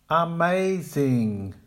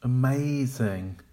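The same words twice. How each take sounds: First: "Amazing" with a full first vowel and no clear stress; incorrect, even and slow. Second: "Amazing" as uh-MAY-zing, middle syllable strong; correct. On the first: Teacher modelling the wrong "Amazing". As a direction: drag out every syllable of "Amazing". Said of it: "the incorrect pronunciation". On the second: Teacher modelling the correct "Amazing". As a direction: reduce the first syllable of "Amazing". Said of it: "Make the weak syllables quiet". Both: Shown as a demonstration.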